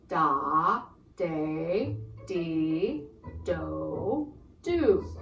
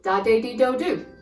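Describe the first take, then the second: First: The syllables are said slowly. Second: The syllables are said fast.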